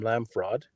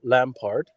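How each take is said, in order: First: Lamfrod said with an f sound in place of the p; Lamfrod nickname. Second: Said in the usual way. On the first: Shown as a demonstration. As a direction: mangle Lampard into Lamfrod, stress on Lam. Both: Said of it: "or I call him Lamfrod".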